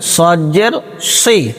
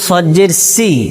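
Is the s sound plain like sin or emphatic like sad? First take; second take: emphatic; plain. First: The s is emphatic, like the letter sad. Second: The s is plain, like the letter sin. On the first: The speaker calls it right. "বলতে হবে সজ্জের সি।" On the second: The speaker calls it wrong. "কেউ যদি বলে সজ্জের সি, তে সিনের উচ্চারণ হয়ে যাবে।"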